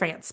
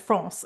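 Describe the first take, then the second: First: France is said with an English pronunciation. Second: France is said with a French-style pronunciation. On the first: "instead of France" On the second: "I just said France"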